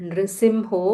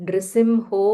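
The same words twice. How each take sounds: Both takes have the same delivery.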